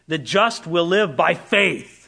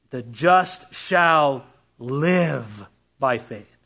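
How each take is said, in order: First: The stress is on "faith". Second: The stress is on "live".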